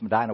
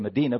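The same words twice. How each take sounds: First: Medina is said with the local pronunciation. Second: Medina is said with a non-local pronunciation. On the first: This is how people from the town say it. The speaker calls it right. "It's Medina where I come from" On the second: This is how outsiders say the name. The speaker calls it wrong. "some would say Medina, but it's not Medina"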